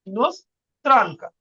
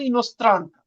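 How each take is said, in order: First: ইনোস্ত্রানকা drawn out slowly in two parts; slow syllable-split demo. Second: Said in the usual way. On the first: Shown as a demonstration. Teacher repeating the women's form for learners, ইনোস্ত্রানকা slow and split. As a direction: break ইনোস্ত্রানকা slowly after "inos".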